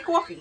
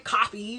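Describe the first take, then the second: First: It is said with a Queens accent. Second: It is said with a standard accent.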